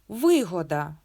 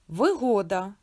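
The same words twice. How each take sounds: First: The stress is on the first syllable. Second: The stress is on the second syllable. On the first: "Вилізла боком" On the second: "Годі чекати вигоду"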